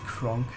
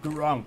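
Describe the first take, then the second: First: The name begins with a hard K sound. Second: The name begins with a soft G sound. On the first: The speaker calls it right. "the hard K in the in the beginning" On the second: The speaker calls it wrong. "Maybe I'm just mixing it up"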